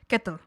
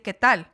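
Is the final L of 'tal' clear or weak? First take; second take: weak; clear. First: The final L is barely pronounced. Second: The final L is pronounced clearly.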